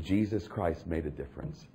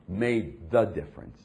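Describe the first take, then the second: First: Said in the usual way. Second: "the" drawn out and stressed; slow down and lean on "the". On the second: Shown as a demonstration. Preacher correcting himself to make the point, stress on "the".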